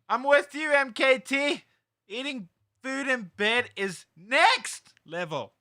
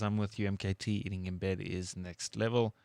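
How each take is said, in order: First: It is read loudly, with shouted exclamations. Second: It is read in a calm, plain voice.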